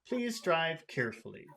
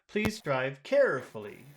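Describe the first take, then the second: First: It has no high pitch on 'care', sounding serious. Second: It has a high pitch on 'care', sounding friendly. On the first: "it sounds serious or formal or educational" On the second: "put a high tone on care ... that would sound friendlier or nicer"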